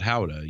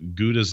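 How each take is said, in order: First: The word begins with a breathy H-like sound. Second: The word begins with a hard G sound. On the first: This is the form closer to the original language. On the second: This is the form Americans understand.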